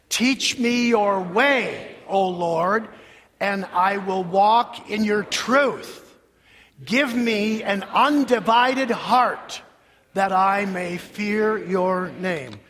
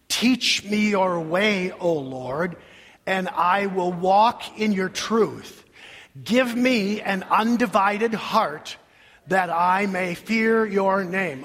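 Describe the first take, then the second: First: It is said with energy and strong emphasis. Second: It is said lazily, with low energy.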